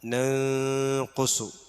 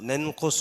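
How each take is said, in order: First: The n is held with a nasal hum. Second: The n is said plainly without nasal hum. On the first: The speaker calls it right. "അവിടെ മണിച്ചിട്ടാണത്" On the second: The speaker calls it wrong. "എന്ന് ഓതാൻ പാടില്ല"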